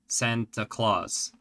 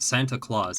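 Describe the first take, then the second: First: It is pronounced close to Dutch 'Sinterklaas'. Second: It is pronounced the usual English way. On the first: "The way she pronounces it, ... fairly close to the uh, Dutch pronunciation" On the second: "it's not Santa Claus"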